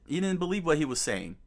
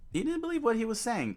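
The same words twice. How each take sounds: First: Said in the usual way. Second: Higher and faster, stressing didn't; emphatic repeat. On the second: Real, not acted. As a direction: push the repeat up high and quick on didn't.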